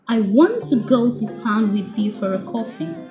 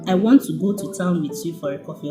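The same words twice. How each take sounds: First: Key words are stressed with lively intonation. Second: It is said flat, with no stressed words.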